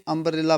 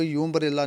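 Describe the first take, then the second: First: अम्ब्रेला begins on a short "uh" vowel; अम्ब्रेला as "um-brella"; correct pronunciation. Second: यू अम्ब्रेला with a "you" sound before it; यू अम्ब्रेला said like "you-mbrella"; wrong pronunciation. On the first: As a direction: start अम्ब्रेला on the vowel, no y sound. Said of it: "अम्ब्रेला पढ़ते हैं हम इसको". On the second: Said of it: "यू अम्ब्रेला नहीं पढ़ते हैं". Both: Shown as a demonstration.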